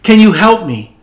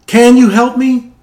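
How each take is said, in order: First: Higher, louder plea; pleading. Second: Much higher, louder pleading repeat; desperate plea. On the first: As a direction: beg God for help from the cliff. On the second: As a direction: beg harder, voice climbing. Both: Retold or imitated. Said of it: "So he pleaded".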